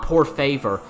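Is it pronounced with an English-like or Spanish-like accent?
English-like. It is said with English-style vowels and r. The speaker calls it wrong. "it was not por favor"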